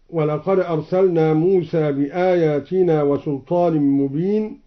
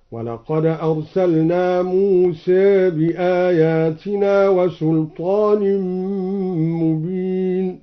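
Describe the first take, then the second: First: Said in the usual way. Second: Slow chant, موسى said "Muse", final a tilted to e; taqlil on Musa. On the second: Shown as a demonstration. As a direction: recite موسى with its ending between a and e. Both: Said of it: "قرأ بتقليل موسى هكذا".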